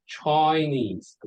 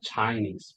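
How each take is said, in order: First: "Chinese" as "Choi-nese", slow and drawn out; Australian oi sound. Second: "Chinese" with an "eye" first vowel; usual I sound. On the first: Teacher showing Australian accent, slow "Chinese" as "Choi-nese". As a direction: stretch the first vowel of "Chinese" into "oi". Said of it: "become oi sound". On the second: Teacher contrasting with Australian, "Chinese" with usual "eye" vowel. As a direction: say "Chinese" as "Chai-nese". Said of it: "not Chinese". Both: Shown as a demonstration.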